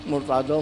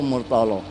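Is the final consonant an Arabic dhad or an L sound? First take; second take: dhad; L sound. First: The final consonant is the Arabic dhad sound. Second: The final consonant is replaced by an L sound.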